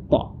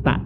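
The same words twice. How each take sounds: First: "ta" with a heavy, dark T; emphatic "ta", close to "to"; correct thick ta. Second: "ta" with a light T and open A; unthickened "ta"; wrong thin ta. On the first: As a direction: say "ta" rounded, tongue raised. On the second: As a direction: say "ta" plainly, tongue low. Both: Shown as a demonstration. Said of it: "bukan ta, tapi ta".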